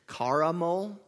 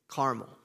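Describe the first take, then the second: First: The word is said with three syllables. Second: The word is said with two syllables. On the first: The speaker calls it wrong. "It is so hard to hear the two versus three syllables" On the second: The speaker calls it right. "two syllables"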